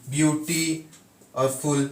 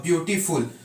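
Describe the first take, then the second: First: beauty, a pause, then और फुल; split into parts. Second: Said in the usual way. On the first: Shown as a demonstration. Teacher showing the syllables in beautiful, beauty and फुल set apart by a pause. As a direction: break the word apart after beauty, giving फुल separately. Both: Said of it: "तीन तीन है इसमें".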